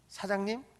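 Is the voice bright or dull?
bright. It is said in a bright, raised pitch. The speaker is friendly and welcoming. The speaker calls it right. "항상 썰음을 하면서 사장님, 계장님 이렇게 얘기해야지"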